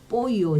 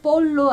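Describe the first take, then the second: First: The double L sounds like an English Y. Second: The double L sounds like an English L. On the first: The speaker calls it right. "볼로 아니고 뽀요" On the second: The speaker calls it wrong. "볼로 아니고"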